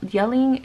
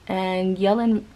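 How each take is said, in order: First: Yelling said louder and higher; emphatic yelling. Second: Said in the usual way. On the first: Real, not acted. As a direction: punch out the word yelling loudly. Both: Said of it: "it makes me nervous".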